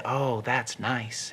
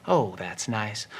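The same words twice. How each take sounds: First: Slow, soft, blissed-out Lenny; dreamy contentment. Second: Slower and softer still, lost in it; deeper contentment. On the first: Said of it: "Lenny said". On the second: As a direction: linger on it even more. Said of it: "he stroked harder". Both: Acted.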